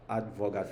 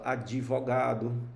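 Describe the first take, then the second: First: No extra vowel is heard between d and v. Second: An extra vowel is heard between d and v. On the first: "tem muita gente que não fala advogado" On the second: "fala advogado"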